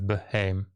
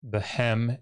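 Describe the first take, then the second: First: The first vowel is long, leaving the syllable open. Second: The first vowel is short, closing the syllable. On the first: The speaker calls it wrong. "instead of" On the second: The speaker calls it right. "this long vowel has to become short"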